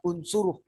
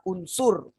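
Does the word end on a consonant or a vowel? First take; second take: vowel; consonant. First: The word ends with an added final vowel. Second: The word ends on a bare final consonant. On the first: The speaker calls it wrong. "bukan unsuruh, salah" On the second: The speaker calls it right. "Jadi baca unsur"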